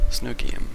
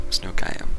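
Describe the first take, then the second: Both takes have the same delivery.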